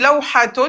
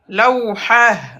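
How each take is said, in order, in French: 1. Le mot finit par une vraie terminaison t-un. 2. Le mot finit par un h soufflé, pas de t. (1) "On dit lawhatun" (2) "mais quand on s'arrête, lawhah. On va pas prononcer le t"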